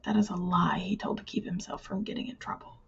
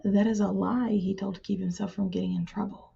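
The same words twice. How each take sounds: First: Softer, lie lightly leaned on; a quieter italic stress on lie. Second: Lie leaned on; the word lie emphasized; stress on lie. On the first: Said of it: "we want to do it with italics instead". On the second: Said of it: "trying to emphasize the word lie". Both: Shown as a demonstration.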